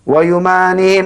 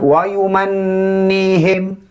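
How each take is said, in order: First: The n is short with no nasal hum. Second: The n is held with a nasal hum. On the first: The letter has no doubling mark. "Kalau tak ada sabdu kita baca" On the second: The letter has a doubling mark. "dengung ini ada keluarnya daripada pangkal hidung"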